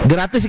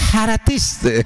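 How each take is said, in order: First: It begins with a plain g sound. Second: It begins with an h sound instead. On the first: "G G jadi H" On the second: "haratis orang Sunda"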